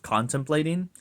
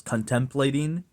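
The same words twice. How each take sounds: First: CONTEMPLATING stressed on CON, CON-tem-plating; standard pronunciation. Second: First CONTEMPLATING stressed on TEM, con-TEM-plating; coworker's mispronunciation. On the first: Shown as a demonstration. Giving the coworker's correction, CON-tem-plating. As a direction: put the stress of contemplating up front. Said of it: "instead of contemplating". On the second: Retold or imitated. Quoting a coworker, con-TEM-plating. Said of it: "coworker who says contemplating".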